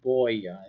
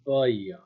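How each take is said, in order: First: The first vowel is a plain English O. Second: The first vowel is not quite an O. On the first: The speaker calls it wrong. "Like in English" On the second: The speaker calls it right. "the O is not exactly an O"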